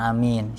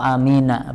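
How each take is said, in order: First: The word ends on a bare consonant. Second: The word ends with a final 'a' vowel. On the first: The speaker calls it wrong. "bukan amin" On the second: The speaker calls it right. "Jadi yang benar itu yang anak tahu amina begitu ya"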